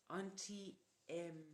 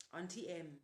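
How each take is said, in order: First: Slow realization. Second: Said in the usual way. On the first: A narrator's reading. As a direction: let the truth sink in on Auntie Em.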